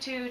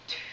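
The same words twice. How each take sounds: First: The syllable is spoken aloud with full voice. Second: The syllable is whispered without voice. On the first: "say tu" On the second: "Now we're going to whisper it"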